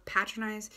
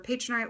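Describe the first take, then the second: First: "patronize" said PAT-ro-nize, short a as in "cat"; first-syllable PAT. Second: "patronize" said PAY-tro-nize, long a; first-syllable PAY. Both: Shown as a demonstration.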